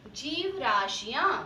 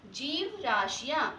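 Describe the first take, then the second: First: जीव राशियां spoken slowly, each syllable clear; teacher modelling जीव राशियां slowly; slow clear pronunciation. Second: जीव राशियां again slow and distinct; teacher repeats जीव राशियां slowly; slow clear pronunciation. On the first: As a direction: draw out जीव राशियां for pupils. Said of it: "next है". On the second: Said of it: "क्या है". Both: Shown as a demonstration.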